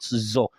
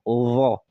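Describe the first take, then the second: First: The letter is said like a heavy z. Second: The letter is said without a z sound. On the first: The speaker calls it wrong. "you now change it to an heavy letter like zo. It is not zo" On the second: The speaker calls it right. "it is vo"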